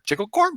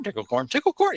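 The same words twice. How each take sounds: First: "Tickle corn" asked much higher with a rising end; questioning. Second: "tickle corn, tickle corn" answered firmly, higher and settling down; emphatic. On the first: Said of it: "say it in a questioning manner". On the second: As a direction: answer "tickle corn" with a firm, confirming push. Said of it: "say it in an emphatic". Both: Acted.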